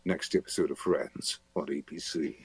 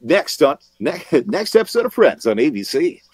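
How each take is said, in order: First: Low, hushed, growly horror-trailer read; dark and menacing, much softer and deeper; growly dark promo. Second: High, loud, bouncy TV promo read; light, punchy sitcom announcer with a laugh in it; upbeat comedy promo. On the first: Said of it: "that sort of growly darkness". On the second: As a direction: sell the sitcom promo, bright and big. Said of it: "but I could do". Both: Shown as a demonstration.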